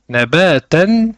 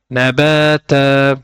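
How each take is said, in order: First: The word ends with a short vowel and n. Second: The word ends with a lengthened vowel, no n. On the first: The reciter continues without stopping on this word. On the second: The reciter stops on this word.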